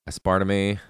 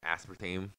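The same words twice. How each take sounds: First: It is said in an unusual, fancier-sounding way. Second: It is said in the usual, plain way.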